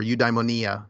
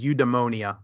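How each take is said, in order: First: Eudaimonia said closer to Greek, "you-dai-mo-NEE-a"; Greek-style pronunciation. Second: First eudaimonia said the English way, "you-de-MOH-nia"; anglicized pronunciation. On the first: Offering the other way to pronounce it, Greek-style eudaimonia. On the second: Offering one way to pronounce the Greek word, anglicized eudaimonia. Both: Shown as a demonstration. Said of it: "depending on how you want to pronounce it".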